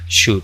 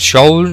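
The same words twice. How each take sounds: First: The L sound is silent. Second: The L sound is pronounced. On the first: The speaker calls it right. "se dice should. La L no suena" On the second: The speaker calls it wrong. "No se dice should ni nada por el estilo"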